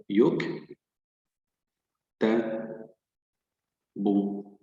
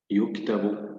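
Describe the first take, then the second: First: "يك-، ت-، ب-" as three separate syllables, long gaps. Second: Said in the usual way. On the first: Shown as a demonstration. Teacher shows the silent letter joins the previous one, split syllables. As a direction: sound out "يك-", then "ت-", then "ب-". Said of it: "الحرف الساكن يقرأ مع الحرف السابق". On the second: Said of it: "سنعيد قراءة الكلمة بشكل كامل".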